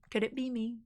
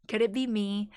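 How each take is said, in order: First: Soft, small mock-wondering voice; hushed playful wondering. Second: Said in the usual way. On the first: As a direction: ask it softly, as if to yourself. Repeats mock-wondering question two ways.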